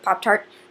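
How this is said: It is said short and clipped, northern style. "like we say Pop-Tart up north, it's sort of this, like, concise, cute word"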